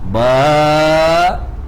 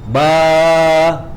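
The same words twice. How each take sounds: First: The long vowel ends with a glottal stop. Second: The long vowel fades out smoothly at the end. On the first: "So I go up, prolong at alif, ends at hamzah" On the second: "the pronunciation it ends with alif"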